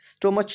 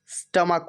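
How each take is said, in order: First: The word ends with a ch sound. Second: The word ends with a k sound. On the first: The speaker calls it wrong. "ये गलत pronunciation है। स्टोमच नहीं होता" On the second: The speaker calls it right. "स्टमक होता है"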